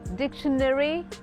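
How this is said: It is said in an American accent.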